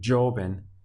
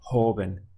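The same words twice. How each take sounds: First: The word begins with a J sound. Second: The word begins with an H sound. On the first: The speaker calls it wrong. "Make sure you're not pronouncing it joven" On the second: The speaker calls it right. "this J O has a H sound"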